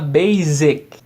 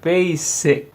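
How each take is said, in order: First: The middle consonant is a buzzing z sound. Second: The middle consonant is a hissing s sound. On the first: The speaker calls it wrong. "Z, não, tá errado" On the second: The speaker calls it right. "tem que ler com um S"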